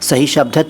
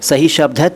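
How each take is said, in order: No difference in how they are said.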